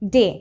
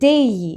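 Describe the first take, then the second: First: The vowel is a pure 'eh' without glide. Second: The vowel glides from 'eh' toward 'ee'. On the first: The speaker calls it wrong. "এটাকে ডে বলা যাবে না" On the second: The speaker calls it right. "এটাকে বলতে হবে ডেই"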